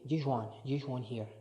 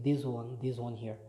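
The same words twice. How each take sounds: First: "This one, this one here" with the S in This said as SH; Edinburgh S as SH. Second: Said in the usual way. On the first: Shown as a demonstration. Showing viewers how older Edinburgh people switch S, "This" with SH. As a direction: say This as "Thish", like older Edinburgh speakers. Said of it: "they say". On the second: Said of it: "instead of saying".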